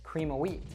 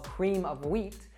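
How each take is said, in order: First: The word of is reduced to uh. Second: The word of is said in full. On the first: "an American probably would say" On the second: "that's called cream of wheat"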